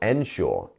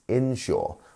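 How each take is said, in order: First: The word begins with an 'en' sound. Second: The word begins with an 'in' sound. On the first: The speaker calls it wrong. "but it's not ensure" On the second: The speaker calls it right. "We have our in sound"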